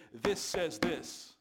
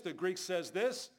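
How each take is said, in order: First: Very slow, weighty "This says this", falling at the end; firm counter-claim. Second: Slow "the Greek says this", lifting on the last "this"; mimicked scholarly claim. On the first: Retold or imitated. Preacher answers scholars with his Bible, "This says this" slow, emphatic and falling. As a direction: punch each word of "This says this", louder and final. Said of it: "I just look at him and I say".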